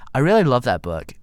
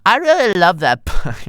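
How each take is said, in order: First: Said in the usual way. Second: Put-on high, loud, over-the-top Valley Girl gush. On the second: Sandy gushing over Goldman's book, hammed-up Valley Girl. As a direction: go all out as a squealing Valley Girl fan. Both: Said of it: "Can't do this, dude".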